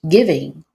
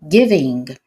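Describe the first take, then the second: No difference in how they are said.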